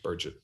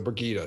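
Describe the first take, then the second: First: The name begins with 'Bur' and ends in 'gett'. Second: The name begins with 'Bri' and ends in 'gida'. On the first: This is an old, mistaken reading of the name. The speaker calls it wrong. "That's how I initially pronounced her name" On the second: This is the corrected reading of the name. The speaker calls it right. "So Brigida. Sorry, everybody"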